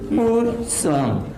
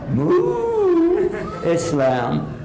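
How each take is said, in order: First: The first syllable is short, run together. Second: The first syllable is drawn out, split apart. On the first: The speaker calls it right. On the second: The speaker calls it wrong. "don't stretch it out like a cow"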